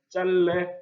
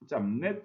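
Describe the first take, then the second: First: The first syllable ends in an l sound. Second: The first syllable ends in an m sound. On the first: This is the standard form. The speaker calls it right. "이렇게 발음해야 해요. 이것이 바로 표준 발음이에요" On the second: This is the common everyday form. The speaker calls it wrong. "실생활 속에서 실제로 짬내라고 많이 말을 해요"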